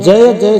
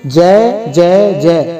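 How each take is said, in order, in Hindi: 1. स्वर एक सीधा, स्पष्ट 'ai' द्विस्वर है। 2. स्वर एक लंबी, खिंची हुई 'e' ध्वनि है। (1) "सीधा सीधा स्पष्ट नहीं बोलते" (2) "ऐसा ही बोलते हैं"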